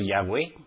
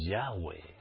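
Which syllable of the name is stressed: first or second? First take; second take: second; first. First: The stress falls on the second syllable. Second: The stress falls on the first syllable. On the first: The speaker calls it wrong. "Pero con acento en la E" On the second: The speaker calls it right. "sin acento en la E"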